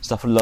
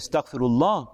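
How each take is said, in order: First: It is rattled off quickly and mechanically. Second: It is said slowly and with feeling.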